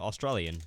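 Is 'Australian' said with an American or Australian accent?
American. It is said with an American-sounding accent. The speaker calls it wrong. "why you keep saying the word Australian so strangely?"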